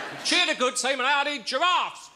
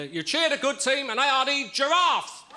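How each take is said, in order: First: High booming announcer cry; booming old melodrama narrator. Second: Put-on booming old melodrama narrator. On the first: Acted. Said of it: "come on, it's not a Tupperware party, this is a football match". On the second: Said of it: "come on, it's not a Tupperware party".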